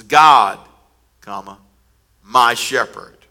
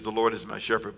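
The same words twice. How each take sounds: First: "God," hit hard, then a pause before "my shepherd"; punchy direct address. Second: Said in the usual way. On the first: Shown as a demonstration. Pastor shows the Message wording's abrupt start, punching "God". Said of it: "he just jumps in and says". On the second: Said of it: "the King James says".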